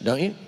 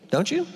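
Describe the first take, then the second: First: Said in the usual way. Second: Squeaky high, hammed-up eager question; mock eager. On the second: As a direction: tease them with a bright, high-pitched "Don't you?".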